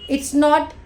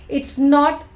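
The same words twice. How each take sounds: Both takes have the same delivery.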